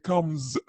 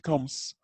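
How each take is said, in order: First: The final s is voiced, like z. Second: The final s is voiceless, like s. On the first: The speaker calls it right. "لا هي comes" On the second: The speaker calls it wrong. "ما هي comes"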